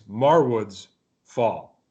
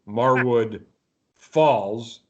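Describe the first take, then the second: First: The s sound ends the first word. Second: The s sound ends the second word. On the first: The speaker calls it right. "It's Marwood's Fall" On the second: The speaker calls it wrong. "Last week I pronounced the band Marwood Falls"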